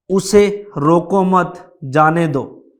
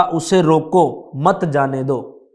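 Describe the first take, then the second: First: "उसे रोको मत", break after मत, then "जाने दो"; group it as उसे रोको मत / जाने दो; pause after मत. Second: "उसे रोको", break after रोको, then "मत जाने दो"; group it as उसे रोको / मत जाने दो; pause after रोको. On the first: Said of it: "यदि ये मत के बाद लगेगा". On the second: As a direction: slowly, stop after रोको, keep मत with जाने दो. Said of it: "यदि रोको के आगे लग जाता है". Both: Shown as a demonstration.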